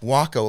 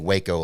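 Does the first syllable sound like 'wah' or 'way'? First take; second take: wah; way. First: The first vowel sounds like 'wah'. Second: The first vowel sounds like 'way'. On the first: It is the name the plane's owner uses. The speaker calls it right. "it's Waco, like taco" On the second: It is named like the Texas city. The speaker calls it wrong. "I wanted to say Waco, like the Texas, city"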